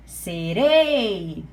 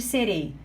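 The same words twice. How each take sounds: First: "serei" with the final "rei" loud and long drawn out; stress on REI. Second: Said in the usual way. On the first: Shown as a demonstration. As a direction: stretch and push the last syllable of "Serei". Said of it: "É orei". ("Serei" com o "rei" final forte e bem alongado) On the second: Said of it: "qual é a sílaba forte".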